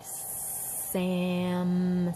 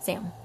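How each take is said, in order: First: The word is said slowly, stretched out. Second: The word is said quickly, all at once.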